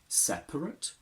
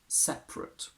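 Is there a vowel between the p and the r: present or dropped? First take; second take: present; dropped. First: The vowel between p and r is pronounced. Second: The vowel between p and r is dropped.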